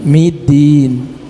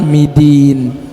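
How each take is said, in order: No difference in how they are said.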